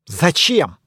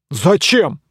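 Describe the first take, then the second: First: Said in the usual way. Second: Surprised. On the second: Acted. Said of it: "удивился рыцарь".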